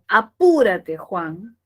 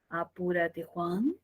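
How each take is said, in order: First: The pitch falls across the phrase. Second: The pitch rises across the phrase.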